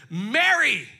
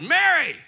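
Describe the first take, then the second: First: Called out loud; loud calling of a name; exclaimed. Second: Mary! called out much louder and higher; ringing loud call of Mary!; exclamation. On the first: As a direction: call her name out with feeling. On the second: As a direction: shout Mary! like calling someone you love. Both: Acted. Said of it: "with an exclamation point".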